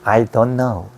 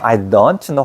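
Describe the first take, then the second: First: The t in "don't" is dropped. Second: The t in "don't" is clearly pronounced. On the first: The speaker calls it right. "왜 t를 발음하지 않느냐 하면" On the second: The speaker calls it wrong. "I don't know 하지 않아"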